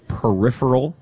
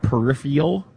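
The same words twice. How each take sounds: First: The word has its usual, standard pronunciation. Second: The word has a changed, nonstandard pronunciation. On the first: The speaker calls it right. "it's peripheral" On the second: The speaker calls it wrong. "not peripheral"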